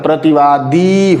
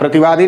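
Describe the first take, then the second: First: The final vowel is long. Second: The final vowel is short. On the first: The speaker calls it right. "लंबा sound आता है" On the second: The speaker calls it wrong. "प्रतिवादी नहीं होता"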